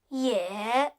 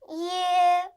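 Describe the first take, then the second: First: The pitch dips low, then rises. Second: The pitch stays high and level.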